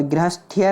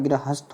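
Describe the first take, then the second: First: "गृहस्थ्य" with a final -ya syllable; extra-ya "गृहस्थ्य". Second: "गृहस्थ" ending on th, no ya; correct "गृहस्थ". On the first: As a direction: end गृहस्थ्य on thi-ya. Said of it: "नहीं होता". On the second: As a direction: finish गृहस्थ straight on the थ. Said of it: "होता है". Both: Shown as a demonstration.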